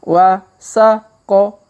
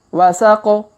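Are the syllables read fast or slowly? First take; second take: slowly; fast. First: The syllables are read slowly. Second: The syllables are read quickly. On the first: "Kita baca pelan-pelan" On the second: "Kalau dipercepat"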